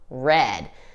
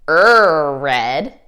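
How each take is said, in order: First: The word starts directly with the r sound. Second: A vowel sound comes before the r. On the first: The speaker calls it right. "It's a r, r, r, red" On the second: The speaker calls it wrong. "we don't say it's er red"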